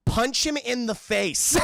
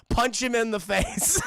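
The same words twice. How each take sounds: First: Loud, slow, higher shout; shouted order. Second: Loud slow shout with a laugh. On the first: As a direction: bark it into his ear. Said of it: "Bruce is just saying". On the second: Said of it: "Bruce is just in his ear". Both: Retold or imitated.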